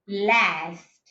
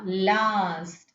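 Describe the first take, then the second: First: It has a short front 'a' vowel. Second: It has a long open 'ah' vowel. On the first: "when it comes to American English, we can find last" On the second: "when it comes to British R P, we can find that this R is being used as ah"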